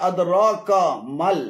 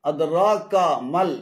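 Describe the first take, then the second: The two takes are said the same way.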